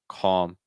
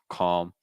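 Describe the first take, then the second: The two takes are said the same way.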